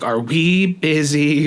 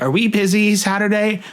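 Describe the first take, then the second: First: Slow, trembling question; voice shaking. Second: Blurting it out nervously; voice shaking. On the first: Asking dad about Saturday, voice shaking. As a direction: nerves barely holding. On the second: Asking dad about Saturday, nervous and higher. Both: Retold or imitated. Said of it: "voice shaking".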